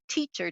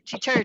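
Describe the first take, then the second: First: The stress is on the first syllable. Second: The stress is on the second syllable. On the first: This is how people say the word. "we say teacher" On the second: This imitates the bird's call. "They have the emphasis on the second syllable"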